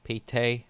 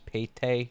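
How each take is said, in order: Both takes have the same delivery.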